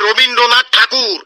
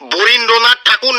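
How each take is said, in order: First: The name begins with an 'r' sound. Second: The name begins with a 'b' sound. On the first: The speaker calls it right. "ওটা হবে রবীন্দ্রনাথ ঠাকুর" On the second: The speaker calls it wrong. "বরীন্দ্রনাথ ঠাকুর না"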